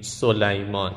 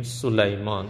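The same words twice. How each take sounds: First: سلیمان as "Soleyman", with an "o"; Persian o vowel. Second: سلیمان as "Sulayman", with a short "u"; short u vowel. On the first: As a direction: show the mistaken "so" opening of سلیمان. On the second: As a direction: correct سلیمان to open on "su". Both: Shown as a demonstration.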